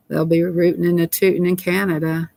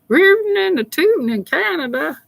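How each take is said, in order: First: Said in the usual way. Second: Very high, held-out silly singsong; playful singsong. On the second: Pretend. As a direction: chant it way up high, goofing around. Repeats the phrase as playful singsong.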